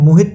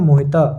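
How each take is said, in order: First: The word ends on a consonant, no final vowel. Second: The word ends with an added final 'a' vowel. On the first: This is the Hindi reading of the written word. "Hindi में इसको पढ़ेंगे तो कैसे पढ़ेंगे, मोहित पढ़ेंगे" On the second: This is the Sanskrit reading without the halant mark. "Sanskrit में इसको हम पढ़ेंगे मोहिता"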